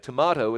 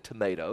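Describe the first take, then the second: First: It is said in a New Zealand accent. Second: It is said in a non-New Zealand accent.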